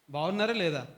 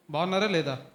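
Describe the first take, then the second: First: Said in the usual way. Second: Asking again, a touch louder; a bit louder. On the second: Real, not acted. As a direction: push the question a little louder to the crowd. (కొంచెం గట్టిగా మళ్ళీ అడగడం) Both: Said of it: "గట్టిగా చెప్పండి అబ్బాయిలు".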